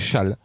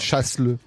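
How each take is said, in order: First: The s sound is silent. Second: The s sound is pronounced. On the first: The speaker calls it right. "je dirais châle" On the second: The speaker calls it wrong. "Pas chasse-le"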